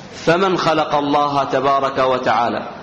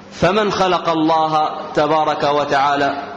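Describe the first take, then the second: Both takes have the same delivery.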